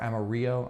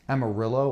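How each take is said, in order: First: The double L sounds like a Y. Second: The double L sounds like an L. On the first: "ya for the L L sound" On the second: "the L L, la la"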